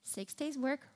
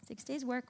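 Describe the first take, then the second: First: Said in the usual way. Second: Six days work breathed without voice; whispered. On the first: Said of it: "one day rest (whispered echo)". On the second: Shown as a demonstration. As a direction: whisper the cadence like a secret. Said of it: "repeated cadence now whispered".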